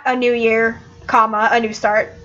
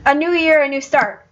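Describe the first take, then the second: First: "a new year, comma, a new start", the word "comma" said out; comma spoken aloud. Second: "a new year, a new start" with no spoken comma, pitched up on "year"; corrective demonstration. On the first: Character showing Sheep the wrong way, comma pronounced as a word. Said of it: "just can't include those commas". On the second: Character correcting Sheep's phrase, higher-pitched demonstration. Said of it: "no, you're doing it wrong". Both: Acted.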